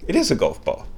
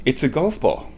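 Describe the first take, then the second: First: "is" punched to confirm; stress on IS. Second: Said in the usual way. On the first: Retold or imitated. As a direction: lean on the word "is" as if confirming it.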